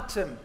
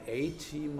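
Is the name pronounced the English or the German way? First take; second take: German; English. First: It is read as one German word, Atem. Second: It is read as the English words A Team. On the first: The speaker calls it right. "so soll man das lesen" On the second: The speaker calls it wrong. "habe das dann englisch ausgesprochen"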